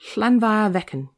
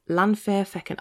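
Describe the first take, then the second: First: The name is said in a Welsh accent. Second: The name is said in a plain non-Welsh accent.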